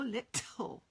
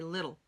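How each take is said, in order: First: The middle t is a clear crisp t. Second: The middle t is a soft quick flap. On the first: The speaker calls it wrong. "I don't say it that way" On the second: The speaker calls it right. "Our tongue kind of sort of flips a little bit"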